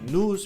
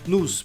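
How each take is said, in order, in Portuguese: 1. A palavra termina com som de z. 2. A palavra termina com som de s. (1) "Pode falar news" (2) "vai parecer que você está dizendo isso aqui, news ... laço"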